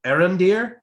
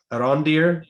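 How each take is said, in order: First: Arondir said AIR-un-deer, stress up front; first pronunciation attempt. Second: Arondir said uh-RON-deer; alternative pronunciation. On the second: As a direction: say Arondir with stress on an open RON. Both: Shown as a demonstration. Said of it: "how to pronounce it".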